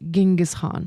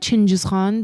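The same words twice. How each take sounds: First: The name is said in English style. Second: The name is said in another language's style. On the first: "the spelling in English is Genghis Khan" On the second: "I call him Genghis Khan based on like my language"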